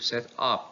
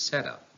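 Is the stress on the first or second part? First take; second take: second; first. First: The stress is on the second part. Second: The stress is on the first part. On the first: It is used as a verb. "The verb takes stress on the second part" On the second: It is used as a noun. "the noun takes stress on the first part"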